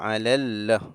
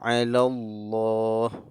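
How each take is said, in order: First: The L in Allah is thin and light. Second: The L in Allah is thick and heavy. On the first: The speaker calls it wrong. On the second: The speaker calls it right. "kita dibaca tebal"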